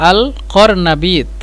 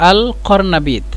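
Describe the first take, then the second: No difference in how they are said.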